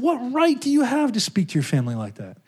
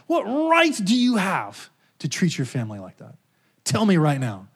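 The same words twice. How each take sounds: First: Jesus' voice. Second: God's voice. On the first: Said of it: "Jesus said". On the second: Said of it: "He said". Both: Retold or imitated.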